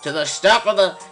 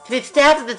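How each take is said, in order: First: It is read in the speaker's ordinary voice. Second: It is read in a put-on character voice.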